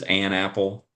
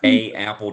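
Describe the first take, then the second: First: An n sound links the article to apple. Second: Two vowels meet with no n sound between. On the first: The speaker calls it right. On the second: The speaker calls it wrong.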